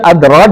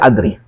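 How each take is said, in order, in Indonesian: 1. Vokal akhirnya bunyi 'a' terbuka. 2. Vokal akhirnya condong ke bunyi 'e/i'. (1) "setiap adroh" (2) "dibaca adri"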